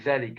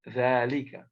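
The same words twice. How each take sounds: First: The first vowel is short, as spelled. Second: The first vowel is long and drawn out. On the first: The speaker calls it wrong. "It is not" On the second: The speaker calls it right. "ذلك is pronounced"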